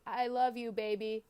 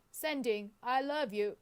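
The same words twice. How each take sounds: First: Said in the usual way. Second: Attempted Australian accent of a voice assistant; put-on assistant voice, badly faked Australian accent; Siri with Australian accent. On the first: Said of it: "I have to say my words". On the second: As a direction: imitate an Australian-accented assistant reading back a message. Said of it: "do an impression of him".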